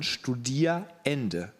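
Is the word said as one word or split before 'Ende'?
split. It is split with a break before 'Ende'. The time of study is ending. "sondern Studierende"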